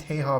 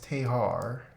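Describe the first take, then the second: First: It is said plainly, without an Australian accent. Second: It is said with an Australian accent, ending 'ar'.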